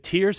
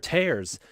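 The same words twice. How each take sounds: First: The vowel sounds like the one in 'ear'. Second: The vowel sounds like the one in 'air'. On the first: The word means crying. "Are they crying" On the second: The word means ripping. "or are they ripping?"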